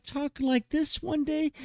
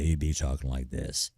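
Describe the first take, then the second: First: Squeaky high-pitched crack. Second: Drops down low; deep voice. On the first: Showing a teen boy how his voice cracks high. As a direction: jump way up into a squeaky voice. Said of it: "the next day you'd be talking like this". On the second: Showing the deeper voice after a teen's voice breaks. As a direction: answer in a lower, manlier voice. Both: Shown as a demonstration.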